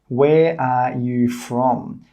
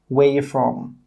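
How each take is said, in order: First: Every word is said fully, including 'are'. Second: It is said quickly with 'are' reduced away.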